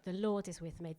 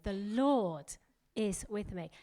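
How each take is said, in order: First: Said in the usual way. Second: "Lord" drawn out slowly and leaned on; slow the line down and weight "Lord"; stress on Lord. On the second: Shown as a demonstration. Preacher shows how to declare it daily, stressing "Lord". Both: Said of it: "Emphasize a different word every day".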